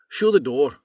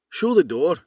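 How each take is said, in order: First: It is said in an Irish accent. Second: It is said in a Northern Irish accent.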